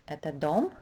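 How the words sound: The voice rises on the last word. It asks whether this is a house. "a question will sound like this, rising intonation on the word dom"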